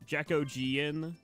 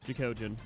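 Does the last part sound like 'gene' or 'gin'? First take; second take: gene; gin. First: The last part sounds like 'gene'. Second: The last part sounds like 'gin'. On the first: The speaker calls it wrong. "Some people pronounce it like um Jackogean" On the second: The speaker calls it right. "then gin, like a gin and tonic. So it's just Ojin"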